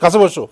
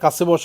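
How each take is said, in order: First: It is said in a harsh, scolding tone. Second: It is said in a calm, gentle tone. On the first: A rude order to sit nearby. The speaker calls it wrong. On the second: A polite invitation to sit nearby. The speaker calls it right.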